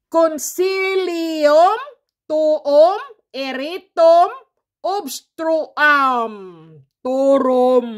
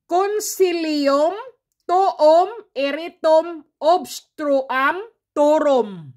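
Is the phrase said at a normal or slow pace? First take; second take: slow; normal. First: It is said slowly. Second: It is said at a normal speed.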